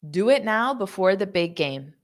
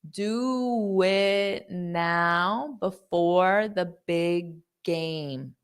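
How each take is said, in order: First: The sentence is spoken at a fast pace. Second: The sentence is spoken at a slow pace. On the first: "I'll say it fast" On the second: "I'll say it slowly"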